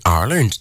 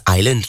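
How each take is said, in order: First: Said in the usual way. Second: "island" for Ireland, R dropped; Geordie "island". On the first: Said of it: "the way some Geordie folks say Ireland". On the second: Shown as a demonstration. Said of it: "don't, like, pronounce the I R".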